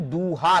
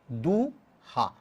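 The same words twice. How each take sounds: First: Said in the usual way. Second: "दूहा" very slow, long du, pause, softer low ha; syllable by syllable. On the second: Shown as a demonstration. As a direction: break "दूहा" into two drawn-out syllables. Teacher splits source word into syllables. ("दूहा" को दू... हा तोड़कर, धीरे)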